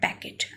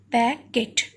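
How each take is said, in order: First: Said in the usual way. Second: "packet" broken as pack, pause, et; split into syllables. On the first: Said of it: "together make this word packet". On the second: Shown as a demonstration. Teacher showing learners the two syllables, "packet" split apart. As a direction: say "packet" in two separate beats. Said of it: "these two syllables together make".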